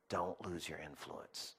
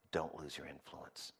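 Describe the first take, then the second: First: Soft plea. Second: Softer, lower plea. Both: Acted. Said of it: "repeated closing exhortation".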